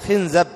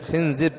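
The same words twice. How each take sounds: First: The vowels are i, then a: khinzab. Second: The vowels are i, then i: khinzib. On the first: "بكسر الخاء وفتح الزاي" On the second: "وأيضا يجوز كسر الزاي"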